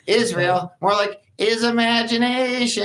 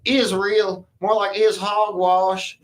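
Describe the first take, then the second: First: It is said in a SpongeBob voice. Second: It is said in a redneck voice.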